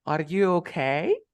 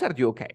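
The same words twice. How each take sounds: First: Slow "Are you okay", okay long and rising; stress on OKAY. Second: "Are you okay" dropping at the end; wrong question tune. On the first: Teacher stressing one word for student, lengthened rising okay. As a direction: stretch "okay" and swing it upward. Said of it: "Estoy estresando una palabra". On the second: Teacher repeating the wrong version for contrast, falling tune. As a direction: let "okay" fall, short and unstressed. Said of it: "No, no es". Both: Shown as a demonstration.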